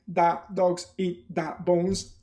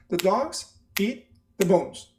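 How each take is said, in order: First: Every word gets a full, equal beat. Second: The small words are reduced, with three main beats. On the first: The speaker calls it wrong. "They're not going to say ... like you want them to say" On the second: The speaker calls it right. "When an English person speaks more slowly, they say"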